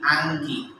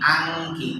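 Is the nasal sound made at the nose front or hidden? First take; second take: front; front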